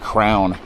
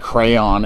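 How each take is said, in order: First: The word is squeezed into one syllable. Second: The word is said with two syllables. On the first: "everybody was like crown" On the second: "one guy said crayon"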